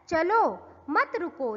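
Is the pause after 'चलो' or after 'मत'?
after चलो. There is a pause after 'चलो'.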